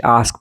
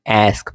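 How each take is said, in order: First: आस्क with a long "ah"; British pronunciation. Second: आस्क with the "a" of cat; American pronunciation. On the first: Teacher shows how British read ask, British pronunciation. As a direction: say आस्क as "ahsk". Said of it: "British आस्क पढ़ते हैं". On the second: Teacher shows how Americans read ask, American pronunciation. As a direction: say आस्क as "aesk". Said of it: "American आस्क पढ़ते हैं". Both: Shown as a demonstration.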